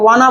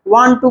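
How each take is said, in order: First: The two words run together into one reduced word. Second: Both words are said fully and separately.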